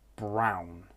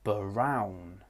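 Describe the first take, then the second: First: The b and r are joined with no vowel. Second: An extra vowel is inserted between b and r. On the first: The speaker calls it right. "Brown is how the word should be pronounced" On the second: The speaker calls it wrong. "Maybe you'll hear brown. ... This is not correct"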